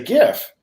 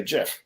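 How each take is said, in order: First: "gif" with a hard G, as in gift; hard G at the start of "gif"; hard G pronunciation. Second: "gif" with a J sound, as jif; soft G pronunciation. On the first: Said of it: "And other people say". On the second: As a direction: start "gif" like "jet". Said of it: "high level tech people say". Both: Shown as a demonstration.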